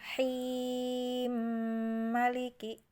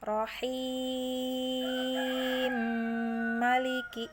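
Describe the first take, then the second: First: The vowel before maliki is held medium long. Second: The vowel before maliki is held very long. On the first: "yang hi-nya dibaca empat" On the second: "dari yang enam harokat dulu ya"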